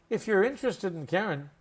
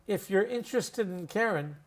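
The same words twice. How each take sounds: Both takes have the same delivery.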